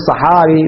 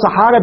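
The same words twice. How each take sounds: First: "صحاري" ending in a long ee; kasra on the ra. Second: "صحارى" ending in an open long aa; fatha on the ra. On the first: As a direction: say "صحاري" with an i vowel after the r. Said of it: "بكسر الراء". («صحاري» بكسر الراء) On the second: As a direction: say "صحارى" with an a vowel after the r. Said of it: "بفتح الراء". («صحارى» بفتح الراء) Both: Shown as a demonstration.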